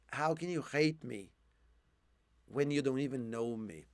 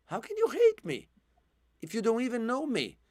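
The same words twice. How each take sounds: First: Hoarse quiet question. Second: High, pained question; pleading cry. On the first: Real, not acted. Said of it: "I'm losing my voice now". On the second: Retold or imitated. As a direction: plead it like the hurt boy. First take, high and full voice.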